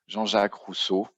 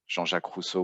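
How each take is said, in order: First: The name is said with an English accent. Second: The name is said with a French accent.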